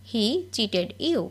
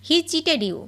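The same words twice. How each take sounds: First: Very slow, word by word; each word drawn out for learners to copy; slow dictation. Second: Said in the usual way. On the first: Shown as a demonstration. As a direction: spell it out slowly for the class. Repeated slowly for learners.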